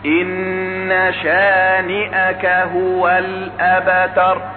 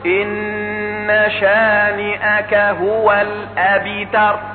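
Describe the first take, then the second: First: The echo after the B sounds like 'a'. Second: The echo after the B sounds like 'i'. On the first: The speaker calls it right. "القلقلة أقرب إلى الفتح منها إلى الكسر" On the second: The speaker calls it wrong. "فيؤدي به تقعره إلى كسر الباء"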